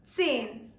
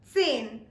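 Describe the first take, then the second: First: The word starts with a clear ts sound. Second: The word starts with a clear ts sound.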